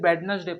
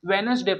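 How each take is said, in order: First: The D sound is pronounced. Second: The D sound is silent. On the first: The speaker calls it wrong. "पर ये गलत है" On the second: The speaker calls it right. "वेनसडे पढ़ेंगे"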